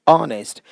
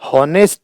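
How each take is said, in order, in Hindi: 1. शब्द स्वर ध्वनि से शुरू होता है। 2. शब्द 'h' ध्वनि से शुरू होता है। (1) "एच का उच्चारण नहीं होता" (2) "नहीं"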